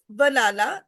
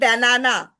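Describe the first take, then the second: First: The unstressed vowels are reduced to a schwa. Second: Every a is said as a full vowel. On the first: The speaker calls it right. "it's banana. So we are not pronouncing the a, a sound, the like a in full stretch" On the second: The speaker calls it wrong. "it's not banana"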